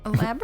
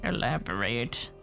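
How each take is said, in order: First: The voice rises at the end like a question. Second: The voice falls at the end like a command. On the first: It is asked as a question. The speaker calls it wrong. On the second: It is a demand, not a question. The speaker calls it right.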